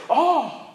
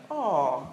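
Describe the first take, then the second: First: High-pitched surprised "oh"; demonstrated gasp of amazement. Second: Low, tender "aww"; melting, lowered coo; cooing at cuteness. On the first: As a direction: exclaim in surprise, pitch jumping up. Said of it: "Or maybe we're surprised". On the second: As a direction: coo as if at a cute little bunny. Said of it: "when we see a cute little bunny". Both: Shown as a demonstration.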